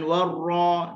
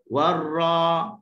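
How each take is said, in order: First: The vowel is said with rounded, pouted lips. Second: The vowel is said with the mouth open. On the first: The speaker calls it wrong. "Jangan warra, jangan muncung" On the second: The speaker calls it right. "Warra buka"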